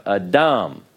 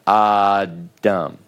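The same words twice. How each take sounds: First: "Adam" as a-DAM, stress on the final syllable; stress on last syllable. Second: "Adam" as AH-dam, first syllable drawn out; slow "Adam" with a long, leaning first syllable; stress on first syllable. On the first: Teacher showing students the Hebrew word, final-syllable stress on "Adam". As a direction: land the weight of "Adam" on its second syllable. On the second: Teacher showing students the mistake to avoid, first-syllable stress on "Adam". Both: Shown as a demonstration. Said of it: "put the stress on the last syllable".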